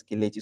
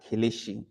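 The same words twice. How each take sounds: First: "Kelechi" with a crisp ch, ke-le-chi; correct pronunciation. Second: "Kelechi" with sh in place of ch, ke-le-shi; mispronunciation. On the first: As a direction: say "Kelechi" with the ch affricate. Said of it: "the pronunciation of that word is Kelechi". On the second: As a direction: say "Kelechi" wrongly, softening ch to sh. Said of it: "and pronounce it as Kelechi". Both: Shown as a demonstration.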